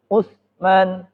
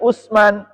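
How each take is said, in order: First: The middle consonant is a soft th sound. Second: The middle consonant is a plain s sound. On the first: The speaker calls it right. "nggak ada S-nya" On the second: The speaker calls it wrong. "Bukan Usman"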